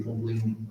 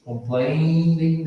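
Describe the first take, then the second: First: Said in the usual way. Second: "Complaining" stretched slowly with a clear I N G ending; slow model word. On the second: Shown as a demonstration. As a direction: spell out "Complaining" by sound, slowly. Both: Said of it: "daí seria com I N G".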